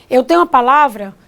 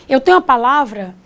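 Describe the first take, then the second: The two takes are said the same way.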